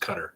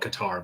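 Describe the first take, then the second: First: Qatar is pronounced the native Arabic way. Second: Qatar is pronounced the American way. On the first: This is how the local language says the name. "in their language it's Qatar" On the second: This is how Americans say the name. "us us Americans call it Qatar"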